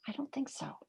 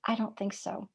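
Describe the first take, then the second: First: Breathy whispered repeat, a hushed no. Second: Said in the usual way. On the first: Shown as a demonstration. Teacher to listeners, repeating her answer in a whisper. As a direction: drop it to a whisper, like a secret.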